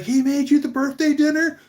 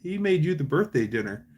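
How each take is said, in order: First: High, loud mock disbelief; astonished. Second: Said in the usual way. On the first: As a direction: imitate an amazed boss, pitch shooting up. Boss's astonished reaction, retold.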